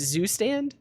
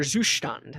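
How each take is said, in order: First: The word is pronounced the English way. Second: The word is pronounced the German way.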